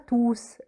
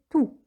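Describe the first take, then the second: First: The final S sound is pronounced. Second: The final S sound is silent. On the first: The speaker calls it wrong. "on ne prononce pas le S du déterminant tout. On ne dit pas tous" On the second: The speaker calls it right. "mais tout"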